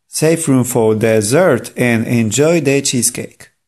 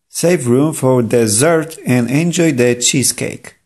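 The two takes are said the same way.

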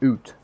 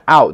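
First: It is said with a Canadian 'oot' vowel. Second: It is said with a standard vowel.

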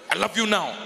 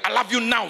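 First: It is said in a tender, romantic way. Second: It is said quickly and hurriedly.

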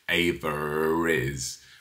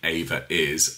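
First: The two words join with an R sound between them. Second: The two words join with no R sound between them. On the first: The speaker calls it right. "Brits will say Ava is. We add an R" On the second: The speaker calls it wrong. "I don't say Ava is"

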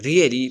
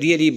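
First: It is said with a sad, sympathetic tone. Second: It is said with a happy, pleased tone. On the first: The listener is sorry about bad news. "sad news پارا really but how" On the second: The listener is glad about good news. "good news پارا really it's great news"

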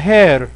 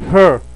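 First: The vowel sounds like the one in "hair". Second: The vowel sounds like the one in "her". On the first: The speaker calls it wrong. "ما حد يقراها hair" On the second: The speaker calls it right. "هذه تنطق her her"

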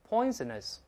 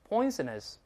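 Both takes have the same delivery.

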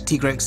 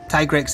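First: It is pronounced in a Japanese way. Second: It is pronounced in an English way. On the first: "Tigrex in Japanese" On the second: "I think Tigrex in English"

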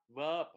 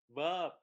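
Both takes have the same delivery.

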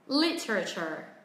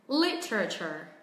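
The two takes are said the same way.

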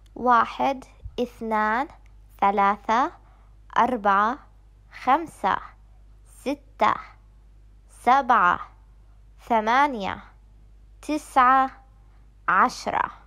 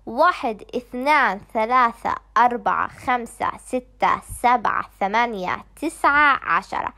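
First: The numbers are counted at a moderate pace. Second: The numbers are counted at a very fast pace.

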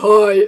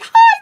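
First: The voice is lower and calm. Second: The voice is very high and excited. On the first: This is how the speaker sounds on the phone. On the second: This is how the speaker sounds when loud and hyper in clubs.

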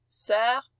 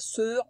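First: The vowel is said as an open sound. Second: The vowel is said as a closed sound. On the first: The speaker calls it right. "C'est un E ouvert" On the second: The speaker calls it wrong. "on dit pas sœur"

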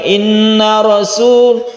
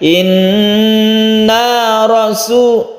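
First: The final vowel of inna is cut short. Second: The final vowel of inna is held long. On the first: The speaker calls it wrong. "Jadi bukan inna rasul, tapi dibaca panjang ya" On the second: The speaker calls it right. "panjangnya satu alif ya"

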